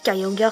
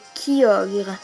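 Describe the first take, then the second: First: The name is pronounced the English way. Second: The name is pronounced the French way. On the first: The speaker calls it wrong. "Kyogre c'est en anglais" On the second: The speaker calls it right. "la vraie c'est Kyogre"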